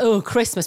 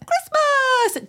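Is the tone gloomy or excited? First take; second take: gloomy; excited. First: It is said in a flat, dreading tone. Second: It is said in an excited, cheerful tone.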